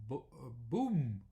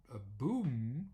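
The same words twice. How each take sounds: First: "boom" with a long, stretched oo, said slowly; Dutch boom. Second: "a boom" with a long held M at the end; English boom. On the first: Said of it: "or with oo". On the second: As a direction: lean on the final M of "boom". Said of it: "the M is already longer". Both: Shown as a demonstration.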